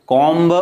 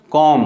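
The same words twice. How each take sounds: First: "कॉम्ब" with the b sounded, the wrong way; wrong comb. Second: "कॉम" ending on m, b silent; right comb. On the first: Teacher shows students the wrong "कॉम्ब", b pronounced. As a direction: sound the b in "कॉम्ब" to show the error. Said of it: "कॉम्ब नहीं होगा". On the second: Teacher gives students the right "कॉम", b silent. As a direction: stop "कॉम" at the m. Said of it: "ठीक है ना, कॉम". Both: Shown as a demonstration.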